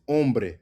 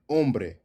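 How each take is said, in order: The two takes are said the same way.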